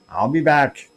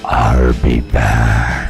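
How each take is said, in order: First: It is said in a normal voice. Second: It is said in a deep, dark voice.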